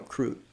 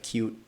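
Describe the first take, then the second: First: An r sound follows the k. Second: No r sound follows the k. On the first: This is how a young child said it. The speaker calls it wrong. "I used to say croot" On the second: This is the usual adult form. The speaker calls it right. "instead of cute"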